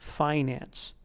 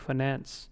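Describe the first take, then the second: First: The first syllable is clearly stressed. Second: The first syllable is not clearly stressed. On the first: The speaker calls it right. "you really want to hit the first part of it" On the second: The speaker calls it wrong. "those things do not stand out, and it's not clear"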